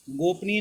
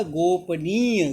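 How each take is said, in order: First: गोपनीय squeezed to gop-ni; wrong pronunciation. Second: गोपनीय slow, with "neey" stretched; stressed long vowel. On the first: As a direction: hurry गोपनीय with a short ending. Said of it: "गोपनीय नहीं होता". (गलत उच्चारण, गोपनीय को "गोपनी" बोलें) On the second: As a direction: lean hard on the "nee" of गोपनीय. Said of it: "जोर दे के बोला जा रहा है". (गोपनीय में "नी" पर जोर देकर) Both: Shown as a demonstration.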